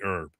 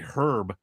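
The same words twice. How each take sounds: First: The word is said in an American manner. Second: The word is said in an English manner. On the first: The speaker calls it right. "It's supposed to be herb" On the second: The speaker calls it wrong. "the English actually say herb incorrectly"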